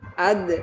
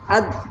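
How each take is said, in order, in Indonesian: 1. Bunyi d akhir dilepas dengan pantulan. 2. Bunyi d akhir ditahan dan berhenti mendadak. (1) "ditambah dengan qalqalah ... Baru ada pantulan suaranya" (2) "menahan huruf ketika sukun itu namanya syiddah"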